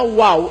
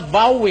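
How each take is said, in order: First: The word begins with a W sound. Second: The word begins with a V sound. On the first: This follows the English spelling. The speaker calls it wrong. "Imbis na wow, spelling eh W" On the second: This is how Hebrew speakers say it. The speaker calls it right. "Yung pronunciation naman nila sa W, parang V"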